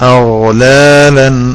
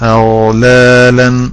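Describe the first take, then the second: The two takes are said the same way.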